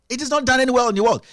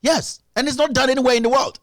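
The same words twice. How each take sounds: First: "not" hit hard, quick pace, falling close; faster hammered repeat. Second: "not" pushed up with a rising finish; emphatic stress on not. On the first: Pundit repeating his point, quick and falling on "not". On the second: Pundit insisting to the audience, stress on "not" rising. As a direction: lean on "not" and let the line lift at the end. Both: Real, not acted.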